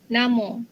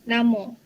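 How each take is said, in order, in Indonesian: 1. Ini diucapkan dengan lafal dialek Negeri Sembilan. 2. Ini diucapkan dengan lafal dialek Negeri Sembilan.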